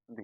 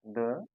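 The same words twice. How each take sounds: First: "दी" with an ee vowel; long-ee "the". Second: "द" with a short, neutral vowel. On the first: Teacher demonstrating the other reading, "दी" with ee vowel. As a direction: say "दी" to rhyme with "see". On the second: Teacher demonstrating how the word is read, "द" with short vowel. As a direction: say "द" as a short "duh". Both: Shown as a demonstration. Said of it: "दोनों इसका pronunciation बिल्कुल wrong".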